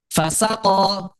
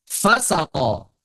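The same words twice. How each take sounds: First: Fasako with the SA raised in pitch, drawn out; stress on second syllable. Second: FA-sa-ko, first syllable raised, drawn out; stress on first syllable. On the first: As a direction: say fasako slowly, lifting the middle syllable sa. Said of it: "atau sin yang suaranya tinggi". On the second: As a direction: say fasako slowly, hitting fa highest. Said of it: "Paknya yang suaranya tinggi". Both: Shown as a demonstration.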